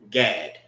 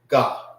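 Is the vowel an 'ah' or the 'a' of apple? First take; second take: apple; ah. First: The vowel is the short 'a' of apple. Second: The vowel is an open 'ah' sound. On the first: This is the English pronunciation. "In the English way, that is how you pronounce that" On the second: This is the Hebrew pronunciation. "When we pronounce our Hebrew, it's ah"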